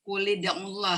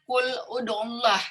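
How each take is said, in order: First: The joining vowel is an i sound. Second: The joining vowel is a u sound. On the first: This is how one recitation tradition reads it. "tapi untuk uh, asim dibaca kulida'ullah" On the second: This is what the general rule would give. "Harusnya lamnya kan tasdid kul ud'ullah"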